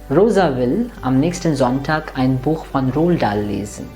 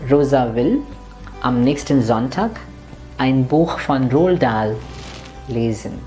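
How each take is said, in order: First: It is read quickly with slight breaks. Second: It is read slowly with clear breaks.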